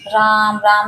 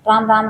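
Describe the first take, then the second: First: The words are said slowly with pauses between. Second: The words are said rapidly without any pauses. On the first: The mind wanders off before it connects. The speaker calls it wrong. "रुक के नहीं, राम, राम ऐसे नहीं" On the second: The mind gets absorbed and craving fades. The speaker calls it right. "इतनी speed में बोलना है"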